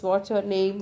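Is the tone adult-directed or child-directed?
adult-directed. It is said in a plain, adult conversational tone. The listener is a grown-up student. "if I talk the student"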